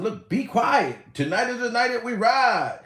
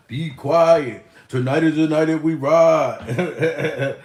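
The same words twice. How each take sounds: First: Said in the usual way. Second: Low, rapper-style delivery of the lyric; a rapper's voice. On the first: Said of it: "Remember that song by a rapper?". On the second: Retold or imitated. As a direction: drop the voice low like a rapper rapping. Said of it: "In my rapper voice".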